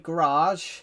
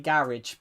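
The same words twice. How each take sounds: First: It is said with an American pronunciation. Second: It is said with a British pronunciation. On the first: "Americans will say garage" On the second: "We say garage because we um we we pronounce it differently"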